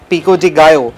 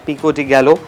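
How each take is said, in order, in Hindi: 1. Double L का उच्चारण Y की तरह होता है। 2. डबल L का उच्चारण L की तरह होता है। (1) "ये एक प्रोनाउंसिएशन जो है ना मेक्सिकन" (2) "इट्स नॉट पिको डी गैलो"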